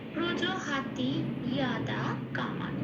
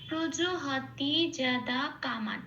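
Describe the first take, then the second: First: The second word begins with a 'y' sound. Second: The second word begins with a 'j' sound. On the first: It is read with Sanskrit pronunciation. "এই অংশের সংস্কৃত উচ্চারণটা" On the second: It is read with Bengali pronunciation. "এটা আমি বাংলায় বললাম।"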